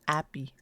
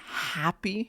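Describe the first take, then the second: First: The word begins directly with a vowel. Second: The word begins with an h sound. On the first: "he says appy" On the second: "Instead of saying happy"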